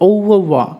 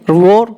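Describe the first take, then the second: First: The last syllable is said like 'vwa'. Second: The last syllable is said like 'vore'. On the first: The speaker calls it right. "It's overwa" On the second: The speaker calls it wrong. "it's not I revore"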